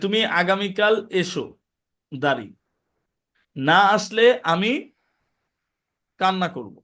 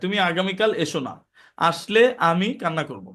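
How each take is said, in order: First: There is a pause right after 'eso'. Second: There is a pause right after 'na'. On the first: Come tomorrow; if you don't come, I will cry. The speaker calls it right. "দুইটা বাক্য" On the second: Don't come tomorrow; actually, I will cry. The speaker calls it wrong. "টোন যদি ঠিক না থাকে ... অর্থ change হয়ে যায়"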